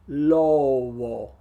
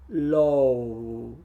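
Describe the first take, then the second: No difference in how they are said.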